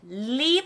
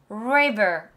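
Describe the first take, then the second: First: It starts with a light Korean-style r sound. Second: It starts with a resonant English r sound. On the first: The speaker calls it wrong. "리버 아니에요" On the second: The speaker calls it right. "그게 목에서 나와야 돼요"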